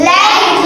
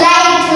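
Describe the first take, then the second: Both takes have the same delivery.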